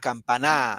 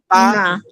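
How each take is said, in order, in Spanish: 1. La tónica está en la última sílaba. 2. La tónica está en la sílaba del medio. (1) "Si fuera en na, campaná" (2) "acá el acento va en pa"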